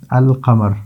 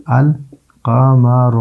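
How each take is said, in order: First: Said in the usual way. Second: القمر very slowly, pausing after a clearly sounded "al"; syllable-by-syllable pronunciation. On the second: Shown as a demonstration. Teacher showing that the lam is pronounced, slow syllable-by-syllable القمر. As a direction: stretch القمر out as "al... qa-ma-ru", lam fully voiced. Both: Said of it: "جو تلفظ ہے وہ ہوتا ہے".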